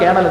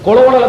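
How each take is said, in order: First: It is said sounding like 'kernel'. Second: It is said letter by letter, as spelled. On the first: "കേണൽ എന്ന് വായിക്കുക" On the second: "കൊളോളൽ എന്ന് എഴുതുക"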